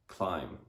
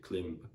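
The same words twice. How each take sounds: First: It is said with an English pronunciation. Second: It is said with a Spanish pronunciation. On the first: "an English person will read climb" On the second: "Spanish people will read climb"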